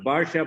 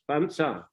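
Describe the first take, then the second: First: An r sound closes the first syllable. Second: An n sound closes the first syllable. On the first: This is the original Sanskrit form of the word. "The Sanskrit word is Barsha" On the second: This is how Thai speakers say the word. "Thais pronounce not Barsha but Bans, Bansa"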